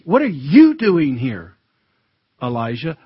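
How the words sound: It sounds stern and rebuking.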